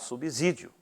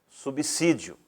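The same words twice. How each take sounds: First: The middle s sounds like a buzzing z. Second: The middle s sounds like a sharp s. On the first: The speaker calls it wrong. "Não podemos falar" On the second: The speaker calls it right. "vou pronunciá-la de forma correta"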